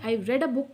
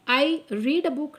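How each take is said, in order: First: The word read sounds like red. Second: The word read sounds like reed. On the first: The speaker calls it right. "मैं इसे रेड pronounce करूँगी" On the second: The speaker calls it wrong. "Sorry"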